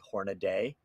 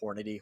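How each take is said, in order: First: The name ends with an added 'day' sound. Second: The name ends with a short 'dee' sound. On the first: The speaker calls it wrong. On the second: The speaker calls it right.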